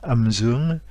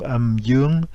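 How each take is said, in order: First: It is said with a northern Vietnamese accent. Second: It is said with a southern Vietnamese accent. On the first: "ou bien l'accent du nord" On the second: "utiliser l'accent du sud"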